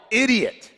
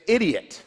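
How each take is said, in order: First: Higher-pitched, half-hearted self-scolding yell; mock yell. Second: Said in the usual way. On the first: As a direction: lightly act out yelling at yourself. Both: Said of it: "and I'll just yell".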